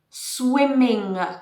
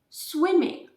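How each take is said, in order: First: The final G sound is strong and heavy. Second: The final G sound is soft and light. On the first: The speaker calls it wrong. "swimming with a strong G" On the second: The speaker calls it right.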